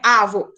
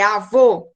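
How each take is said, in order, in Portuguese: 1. A sílaba tônica é a primeira. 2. A sílaba tônica é a última. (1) "não é avô" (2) "a última sílaba é a mais forte"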